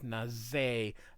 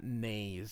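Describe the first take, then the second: First: The final E is sounded as a syllable. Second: The final E is silent, one syllable. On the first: The speaker calls it right. "you are supposed to pronounce the E" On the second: The speaker calls it wrong.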